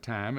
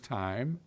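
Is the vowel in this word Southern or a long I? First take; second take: Southern; long I. First: The vowel has a flat Southern sound. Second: The vowel is a full long I. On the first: The speaker calls it wrong. "Instead of time" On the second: The speaker calls it right. "a long I"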